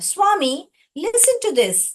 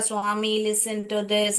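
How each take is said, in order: First: It is read expressively, pausing at the commas. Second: It is read flatly, running on without pauses. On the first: The speaker calls it right. "जहां पर कमा था मैंने रोका" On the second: The speaker calls it wrong. "ऐसा नहीं पढ़ने का बच्चों। एक भाव के साथ पढ़ने का।"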